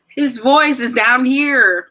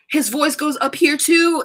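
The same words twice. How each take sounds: First: Slow, drawn-out show of his deep register; slow, emphatic low-voice demo; demonstrating a low voice. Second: Raised pitch, slow and drawn out; slow, higher-pitched voice demo; demonstrating a high voice. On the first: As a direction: stretch out "down here" to show where his voice sits. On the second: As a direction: lift "up here" high to show his upper register. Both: Shown as a demonstration.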